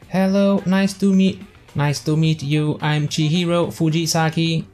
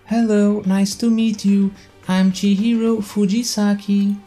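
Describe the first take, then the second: First: It is said in the reader's own voice. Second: It is said in a put-on Chihiro voice.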